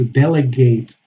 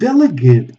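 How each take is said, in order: First: The last syllable has a full 'ate' vowel. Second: The last syllable has a weak schwa vowel. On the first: It is used as a verb. "We have a verb to delegate" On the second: It names a person. "a person"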